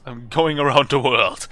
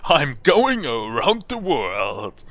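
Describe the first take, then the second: First: Loud, quicker boast; proud declaration. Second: Very slow, loud proclamation; grand boast. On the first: Traveller boasting to the balloon seller, proud declaration. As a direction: declare it loudly. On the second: Traveller telling balloon seller of the voyage, grand boast. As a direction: draw every word out grandly. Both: Acted.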